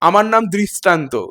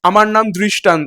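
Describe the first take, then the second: First: It is said in a drawn film slum accent. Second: It is said in plain standard Bengali. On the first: The speaker calls it wrong. "ঠিক ওই যেটা হয় আর কি" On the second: The speaker calls it right. "এটা normal Bangla"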